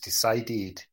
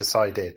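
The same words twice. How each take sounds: First: It has a Scottish accent with a marked ending. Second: It has a standard accent with a plain ending. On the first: "some Scottish accent... there's a sort of ed at the end of it" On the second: "rather than decided"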